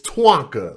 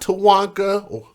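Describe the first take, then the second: First: T and W run together with no vowel. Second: A vowel is added between T and W. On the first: The speaker calls it right. "It's Twanka" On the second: The speaker calls it wrong. "It's not Tawanka"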